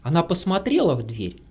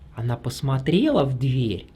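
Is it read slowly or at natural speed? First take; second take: natural speed; slowly. First: It is read at a natural speed. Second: It is read slowly and carefully.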